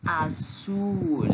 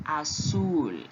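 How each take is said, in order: First: "azul" said slowly in Spanish; Spanish pronunciation. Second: "azul" repeated; Spanish repeat. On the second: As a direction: echo "azul". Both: Shown as a demonstration. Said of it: "em espanhol se diz".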